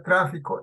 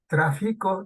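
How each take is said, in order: First: The stress is on the first syllable. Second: The stress is on the middle syllable. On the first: It is the noun. "el tráfico es sustantivo" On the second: It is the present-tense verb form. "del verbo traficar"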